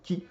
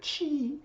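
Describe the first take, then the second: First: The word begins with a hard sound. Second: The word begins with a soft sound. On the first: Vital energy sounds like something firm. The speaker calls it right. "Non, c'est le ki" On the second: Vital energy sounds like something soft. The speaker calls it wrong. "Ça ne peut pas être le chi"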